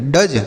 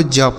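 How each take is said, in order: First: डज with a hard d before the j; wrong letter-by-letter reading. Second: ज as one j sound, no separate d; correct dge sound. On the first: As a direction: misread dge as डज, d sounded separately. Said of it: "तो क्या हम इसे ऐसे पढ़ेंगे". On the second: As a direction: say dge simply as ज. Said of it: "आपको ज पढ़ना है". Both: Shown as a demonstration.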